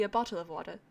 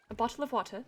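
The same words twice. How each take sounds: First: British accent. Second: "A bottle of water" with a clipped t, "wa-tuh" without the R; posh Received Pronunciation, "bottle" with a crisp t; proper British accent. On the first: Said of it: "when I do try and do a British accent". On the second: Streamer demoing her proper British accent, crisp t in "bottle". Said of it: "it's more of the proper one". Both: Shown as a demonstration.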